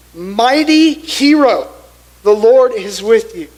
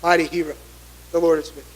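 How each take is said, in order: First: Proclaiming angel. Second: Softly blessing. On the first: Angel greets fearful Gideon. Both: Acted.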